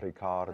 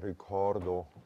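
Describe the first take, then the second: First: The O vowel is open and bright. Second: The O vowel is dark and pulled down. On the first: The speaker calls it right. "but ricardo" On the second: The speaker calls it wrong. "not ricordo, with these muscles pulling down"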